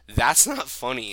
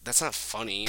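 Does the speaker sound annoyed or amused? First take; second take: amused; annoyed. First: It sounds amused, holding back laughter. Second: It sounds genuinely annoyed and disapproving.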